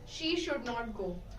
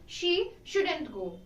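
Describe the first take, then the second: First: Should and not are said as two separate words. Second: Should and not merge into one word, shouldn't. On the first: "Instead of making every single word, making it sound" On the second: "we merged both these words and made a simple contraction"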